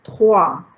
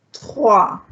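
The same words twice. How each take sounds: First: Trois as twa, the OI sounding wa; Trois, spoken as twa; French trois. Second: Trois said as twa, with a wa sound; French trois. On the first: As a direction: give Trois a clear wa sound. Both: Shown as a demonstration. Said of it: "the O I has a wa sound".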